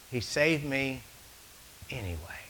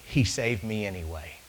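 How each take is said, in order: First: Soft, with anyway whispered; fading to a whisper. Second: Said in the usual way. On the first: Shown as a demonstration. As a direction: let it drop to a hushed secret. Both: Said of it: "you already caught that?".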